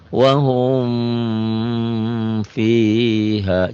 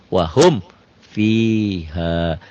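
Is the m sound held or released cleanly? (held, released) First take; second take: held; released. First: The m sound is held before the f. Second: The m sound is released clearly before the f. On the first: The speaker calls it wrong. "jangan ditahan" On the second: The speaker calls it right. "di sini dilepas ... idhar itu jelas"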